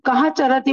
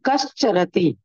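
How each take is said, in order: First: The first word ends in a breathy h sound. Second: The first word ends in a sh sound. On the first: The two words are said separately, before joining. "तो उसको कहा चरती बोलेंगे" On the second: The two words are joined by the sound rule. "संधि जब हुई तो उसको करेंगे कश चरती"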